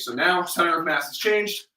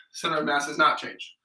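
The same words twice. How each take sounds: First: "changed" lifted at the end in a rising tune; "changed" rises as you show the shift; stress on changed. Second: "not" hit firmly, then the line falls; stress on NOT. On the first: Coach showing clients the changed position, rising on "changed". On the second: Coach showing clients the still position, stressing "not". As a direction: lean on "not" and let it drop. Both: Shown as a demonstration. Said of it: "The only difference is".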